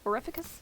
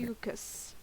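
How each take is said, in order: First: The name is said with an R sound. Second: The name is said without an R sound. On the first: The speaker calls it wrong. "I'm putting an R in there where I shouldn't" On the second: The speaker calls it right. "there's no R"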